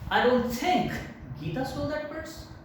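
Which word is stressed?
think. The word think carries the main stress. The speaker cannot even imagine she did it. "If you give stress on think"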